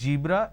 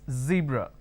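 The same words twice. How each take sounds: First: The word begins with a j sound. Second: The word begins with a z sound. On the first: The speaker calls it wrong. "they replace the z with a j" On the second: The speaker calls it right. "It's a z sound"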